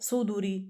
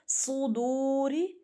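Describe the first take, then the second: First: The vowel before 'ri' is cut short. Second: The vowel before 'ri' is drawn out long. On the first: The speaker calls it wrong. "ऐसे सुदूरी ऐसे नहीं पढ़ सकते" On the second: The speaker calls it right. "एक अलिफ यानी दो हरकत, क्यों क्यों खींच रहे हैं"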